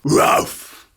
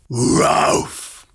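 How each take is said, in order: First: The bark is at a normal speed. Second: The bark is drawn out very slowly. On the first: "Bark like a dog" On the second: "Even more"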